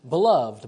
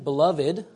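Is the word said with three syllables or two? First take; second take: two; three. First: The word is said with two syllables. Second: The word is said with three syllables. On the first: The word is used as an adjective. "you use the two-syllable pronunciation" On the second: The word is used as a noun. "you use the three-syllable pronunciation"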